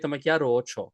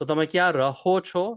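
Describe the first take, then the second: First: The verb's h sound is dropped, shortening it. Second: The verb keeps its h sound in full. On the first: This is the common everyday form. "many people say" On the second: This is the proper full form. "is fine"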